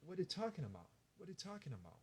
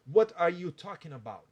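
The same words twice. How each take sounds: First: Very soft, loose, run-together English; hushed, effortless casual phrase; very relaxed. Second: "What are you talking about?" loud, each word distinct; over-pronounce every word of "What are you talking about?"; tense, careful "What are you talking about?"; stiff wrong version. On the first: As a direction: slur it quietly and quickly, jaw loose. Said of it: "Bem relaxado". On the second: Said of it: "Não vai falar". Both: Shown as a demonstration.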